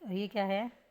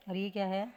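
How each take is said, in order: Both takes have the same delivery.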